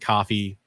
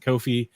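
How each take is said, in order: First: The first vowel sounds like the vowel in 'caught'. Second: The first vowel sounds like the vowel in 'go'. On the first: "Some people pronounce it coffee" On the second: "Some people pronounce it Kofi"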